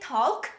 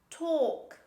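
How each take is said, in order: First: The L sound is pronounced. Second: The L sound is silent. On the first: The speaker calls it wrong. "Don't say talk" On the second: The speaker calls it right. "This is talk"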